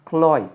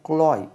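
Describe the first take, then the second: Both takes have the same delivery.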